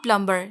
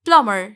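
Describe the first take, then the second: First: Plumber with the b sounded, PLUM-ber; wrong pronunciation. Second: Plumber said PLUM-er, no b; silent B. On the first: Teacher contrasts what not to say, mispronounced. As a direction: say plumber with a clear b. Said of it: "not plumber". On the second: Teacher repeats the correction, B silent. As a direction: say plumber going from m straight to er. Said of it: "यहाँ B silent है". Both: Shown as a demonstration.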